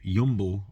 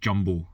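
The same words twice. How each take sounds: First: The name is pronounced with Dutch sounds. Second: The name is pronounced with English sounds.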